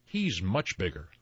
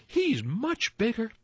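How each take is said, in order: First: Not so small voice. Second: High, tiny pleading voice; tiniest billy goat. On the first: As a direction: middle goat, in an everyday pitch. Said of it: "did not have such a small voice". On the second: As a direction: squeak it as the littlest goat. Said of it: "said the tiniest billy goat Gruff". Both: A narrator's reading.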